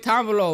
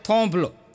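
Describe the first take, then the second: First: The first vowel is a long 'aa' sound. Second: The first vowel is an 'o' sound. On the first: This is how the word is written. "લખ્યું હોય" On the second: This is how local speakers read the word. "વાંચે"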